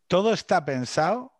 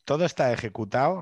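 First: "todo está pensado" said rising, then taken back; first take before correcting himself; self-correction. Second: "todo está ejecutado" with the rise on "todo"; corrected take. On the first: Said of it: "todo está ejecutado, no pensado". ("todo está pensado" con entonación ascendente, luego corregido) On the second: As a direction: set the right word straight. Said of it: "bueno, pensado". ("todo está ejecutado" con subida en "todo", corrigiéndose) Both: Real, not acted.

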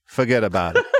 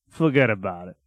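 First: Jokey Chicago-accented "forget about it"; put-on Chicago accent. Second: Much lower put-on Chicago accent; low, imitated Chicago catchphrase; Chicago accent attempt. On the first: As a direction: say it as a mock Chicago catchphrase. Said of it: "In Chicago, we say". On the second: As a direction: drop the pitch and copy a Chicago accent. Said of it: "How do I get my Chicago accent?". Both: Shown as a demonstration.

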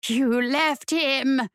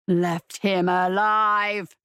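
First: Slow, drawn-out demonic hiss; hissed accusation. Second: Low, slow predator voice; a restrained, drawn-out low roar; predator's roar. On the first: Female demon accuses the fleeing woman, hissed. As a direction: draw out each accusing word, mildly hissed. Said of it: "the female hissed". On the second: Predator demon echoes the accusation, low restrained roar. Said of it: "the predator roared". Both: A narrator's reading.

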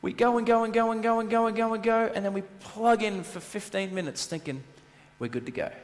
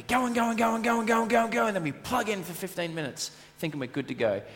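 First: Said in the usual way. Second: "go and go" rattled off high and fast; rushed repeat. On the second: Shown as a demonstration. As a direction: race breathlessly through "go and go and go". Repeats the routine sped up.

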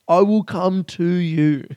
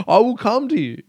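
First: Slow, drawn-out menace at a higher pitch; slower mock menace. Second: Mock menace. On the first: Comedian to his listeners, slow mock-villain threat. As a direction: stretch each word like a movie villain. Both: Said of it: "I'm trying to get angry".

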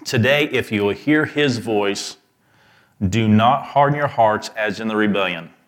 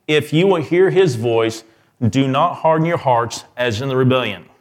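First: "hear" leaned on, the rest at an even reading pace; stress on hear. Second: "his" stressed in "If you will hear his voice", higher and louder. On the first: Preacher to his congregation, first reading, stressing "hear". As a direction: press the word "hear", let "harden" fall at the end. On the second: Preacher to his congregation, second reading, louder with "his" stressed. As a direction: lift the whole line and punch "his". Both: Shown as a demonstration. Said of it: "emphasis on different words".

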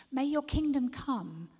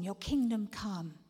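First: Kingdom punched, louder and higher; bold declaration. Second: Your kingdom come, slow and steady; slow prayer. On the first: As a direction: declare it boldly. Declared prayer. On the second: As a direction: pray kingdom come slowly. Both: Shown as a demonstration.

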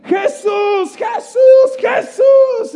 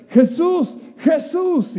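First: Screaming high and loud; desperate shout. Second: High calling out to Jesus. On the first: Desperate beggar screaming for Jesus over the crowd. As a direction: cry out with everything you have. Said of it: "empieza a gritar más". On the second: Blind beggar calls out to Jesus. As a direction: call his name from afar. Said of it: "él empieza a gritar". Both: Retold or imitated.

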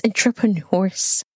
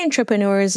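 First: "entrepreneurs" with a clear E at the start, "en-tre-pre-neurs"; "entrepreneurs" said carefully with an E, no A sound; corrected pronunciation. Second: "entrepreneurs" said as "antrepreneurs", open A at the start; "entrepreneurs" with a Jamaican open A, "an-tre-pre-neurs"; Jamaican pronunciation. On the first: Shown as a demonstration. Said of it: "There's no A. It's entrepreneurs". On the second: Real, not acted. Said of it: "There's no A. Oh my God, this Jamaican accent".

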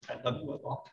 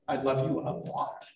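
First: A hushed, tender "I love you a lot"; tender whisper. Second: Said in the usual way. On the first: Shown as a demonstration. Preacher softly whispering love to the congregation. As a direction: breathe it softly, almost whispered.

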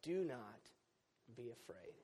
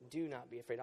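First: Softer, fading angel's words; hushed angel. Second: Said in the usual way. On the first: Retold or imitated. Pastor quoting the angel to his congregation, softly hushed. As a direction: breathe the angel's comfort gently. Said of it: "The angel said".

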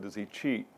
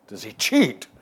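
First: Said in the usual way. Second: Loud, mock-astonished repeat of a question; incredulous echo. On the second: Golfer echoes the writer's question about Trump, incredulous. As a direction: throw the question back, louder, as if absurd.

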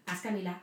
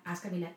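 No difference in how they are said.

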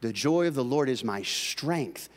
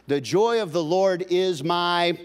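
First: Said in the usual way. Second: "The joy of the Lord is my" loud and high with "joy" hit hard, the last word "my" held open for the room to finish; preacher's call for the crowd to answer; left hanging for the crowd. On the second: Shown as a demonstration. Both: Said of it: "ooh, many of you knew it".

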